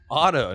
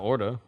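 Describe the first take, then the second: First: The middle consonant is a clear t sound. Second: The middle consonant sounds like a d. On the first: The speaker calls it right. "Auto, not ordo" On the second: The speaker calls it wrong. "not ordo"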